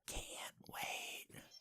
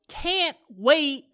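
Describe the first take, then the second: First: It is said in a whisper. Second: It is said in a normal speaking voice. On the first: "Then I, I went in for the whisper" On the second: "first I uh, started with a you know a normal toned voice"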